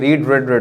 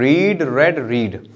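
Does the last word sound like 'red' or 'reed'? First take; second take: red; reed. First: The last word rhymes with bed. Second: The last word rhymes with seed. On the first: The speaker calls it wrong. "जो कि गलत पता होता है" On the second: The speaker calls it right. "नहीं"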